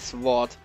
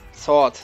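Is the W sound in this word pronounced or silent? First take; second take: pronounced; silent. First: The W sound is pronounced in the word. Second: The W sound is silent in the word. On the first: The speaker calls it wrong. "nicht Sword" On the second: The speaker calls it right. "Das W spricht man nicht aus"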